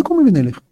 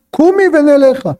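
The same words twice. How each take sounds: First: Said in the usual way. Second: High, commanding order; curt command. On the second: Acted. Husband ordering collapsed concubine to rise, commanding. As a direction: order her up in a raised pitch. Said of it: "פקודה".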